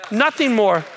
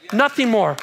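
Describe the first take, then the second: No difference in how they are said.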